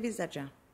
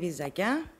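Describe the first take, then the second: First: The consonant before the last vowel is a ts sound. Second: The consonant before the last vowel is a k sound. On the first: This is how the older villagers say it. "οι πιο παλιοί προτιμούν το βιζατζά" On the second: This is how the younger villagers say it. "Οι πιο νέοι προφέρουν το βιζακιά"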